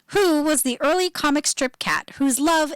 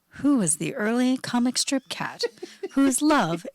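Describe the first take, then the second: First: It is said in a normal speaking voice. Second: It is said in a lower, open-mouthed voice.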